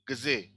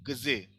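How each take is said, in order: First: The d sound is softened. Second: The same.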